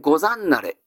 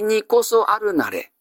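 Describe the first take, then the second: First: The phrase is said fast and squeezed together. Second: Every syllable of the full phrase is pronounced. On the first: "早く言いますと" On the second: "にこそあるなれの転じたものです"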